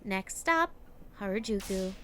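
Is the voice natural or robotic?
robotic. It is read in a flat, robotic voice.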